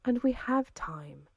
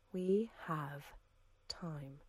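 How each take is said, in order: First: Slow, with weight on we; emphatic. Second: Much softer, trailing into silence; fading hush. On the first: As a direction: lean on "we", draw it out, higher pitch. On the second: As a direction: let "We have time" die away. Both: A narrator's reading. Woman repeats calmly.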